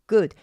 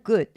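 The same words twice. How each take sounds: First: The final D is fully released with a burst. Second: The final D is a brief unreleased tongue tap. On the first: The speaker calls it wrong. "good까지는 안 와도" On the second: The speaker calls it right. "그냥 good 하고 구에서 D의 드 소리를 낼 때 혀가 위 천장을 한번 쳐준다"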